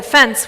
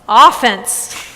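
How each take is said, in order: First: The stress is on the second syllable. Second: The stress is on the first syllable. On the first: It means an insult or outrage. "we don't say offense" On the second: It means the attacking side in a game. "in sports, we say offense"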